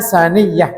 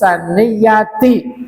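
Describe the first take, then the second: First: The word ends with a soft h sound. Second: The word ends with a full ti syllable. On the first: This is how it is read at a stop. "bacanya saniyah" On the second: This is the original full form.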